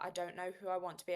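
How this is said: It sounds harsh and self-critical. The speaker sees this as personal failure. The speaker calls it wrong. "in the tone of voice of, I'm such a failure"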